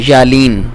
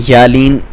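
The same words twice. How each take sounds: The two takes are said the same way.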